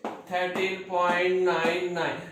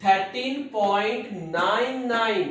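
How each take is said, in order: First: Said in the usual way. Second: "nine nine" said slowly as two separate digits, not ninety-nine; slow, deliberate "thirteen point nine nine", each digit apart; digits spelled out. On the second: Shown as a demonstration. Teacher correcting students' reading, slow and deliberate digit by digit. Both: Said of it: "It is not ninety nine".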